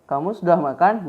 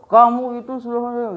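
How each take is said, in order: First: It is said in a gentle, friendly tone. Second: It is said in a harsh, angry tone. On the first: The question is kind and caring. "Kalau itu kan berarti sensinya uh, positif ya" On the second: The speaker is annoyed. "itu sudah nah, sudah nada marah ya"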